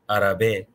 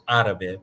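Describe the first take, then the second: First: The stress is on a later syllable. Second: The stress is on the first syllable. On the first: The speaker calls it wrong. "you would never pronounce it árabe or árabe" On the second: The speaker calls it right. "It's always árabe because it's the, where the stress is"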